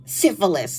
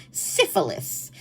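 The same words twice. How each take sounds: First: Said in the usual way. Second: Slow breathy whisper of the word Syphilis. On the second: Shown as a demonstration. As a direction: whisper Syphilis slowly and drawn out. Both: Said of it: "that's what it was".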